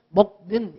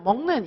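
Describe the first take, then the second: First: The first syllable ends in a k sound. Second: The first syllable ends in an ng sound. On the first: The speaker calls it wrong. "우리는 먹는 이렇게 말 안 하고" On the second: The speaker calls it right. "먹는 이러잖아요 ... 기억이 이응으로 바뀌어서 소리가 나는 겁니다"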